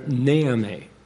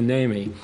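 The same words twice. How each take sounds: First: The stress is on the first syllable. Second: The stress is on the second syllable. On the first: "with the emphasis on the first syllable, not on the second syllable" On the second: "And I corrupted it to"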